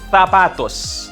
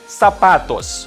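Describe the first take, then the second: First: The Z sounds like a TH. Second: The Z sounds like an S. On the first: "pronounced as like the T H in the English word think" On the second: "that was the Latin American pronunciation"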